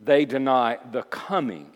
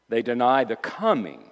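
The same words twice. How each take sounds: First: "coming" stressed, each word set apart; measured emphasis landing on "coming". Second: Said in the usual way. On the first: Shown as a demonstration. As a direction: say it deliberately, leaning on "coming". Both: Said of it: "And I say it with emphasis".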